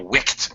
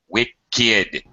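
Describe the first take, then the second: First: The ending is pronounced as a single 't' sound. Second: The ending is pronounced as a separate 'id' syllable. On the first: The speaker calls it wrong. "not a wicked man. It doesn't follow the rules" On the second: The speaker calls it right.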